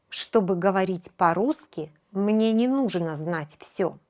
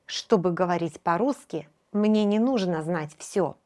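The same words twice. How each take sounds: The two takes are said the same way.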